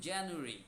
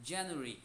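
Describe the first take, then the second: Both takes have the same delivery.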